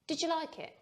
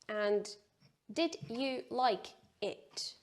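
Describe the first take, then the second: First: The words run together without breaks. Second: Each word is said separately with breaks. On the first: The speaker calls it right. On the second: The speaker calls it wrong.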